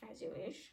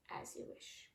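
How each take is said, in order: First: Said in the usual way. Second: Whispered. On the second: Acted. Ruler's proclamation read aloud.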